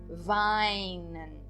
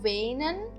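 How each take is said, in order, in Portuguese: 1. A primeira vogal soa como 'ai'. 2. A primeira vogal soa como 'ei'. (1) "mas sim weinen" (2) "Então eu não digo weinen"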